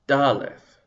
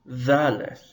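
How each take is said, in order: First: It begins with a hard d sound. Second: It begins with a soft th sound. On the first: The letter has a dagesh. "B'dagesh, d" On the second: The letter has no dagesh. "like in the English word the"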